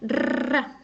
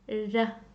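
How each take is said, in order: First: The r sound is pronounced strongly. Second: The r sound is a single soft tap. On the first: "if you pronounce it strongly, it will go r" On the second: "It just goes up and down only once, very softly"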